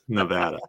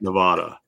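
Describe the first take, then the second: First: The middle vowel sounds like in apple. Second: The middle vowel is not the apple sound. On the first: The speaker calls it right. "we have apples, not opals. At Nevada. That's so it's correct" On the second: The speaker calls it wrong. "Not Nevada"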